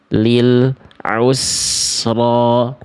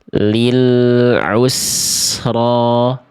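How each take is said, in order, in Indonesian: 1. Ada jeda senyap sebentar setelah bunyi l. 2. Bunyi l menyambung mulus ke vokal setelahnya. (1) "si lam sukunnya terputus. Antara al dengan u seperti ada jeda hening dulu" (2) "yang A ... yang tepat"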